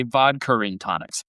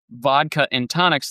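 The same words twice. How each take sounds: First: "vodka and tonics" with an R linking vodka to and; British-style R bridging the two vowels in "vodka and tonics". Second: Said in the usual way. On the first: Shown as a demonstration. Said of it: "there's always an R sound". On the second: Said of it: "they really say vodka and tonics".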